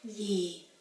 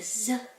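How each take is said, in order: First: The word begins with a y sound. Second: The word begins with a z sound. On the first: "the southerners would pronounce the same word as Ye with a Y as in yellow" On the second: "northern people pronounce this word as Z with a Z as in zebra"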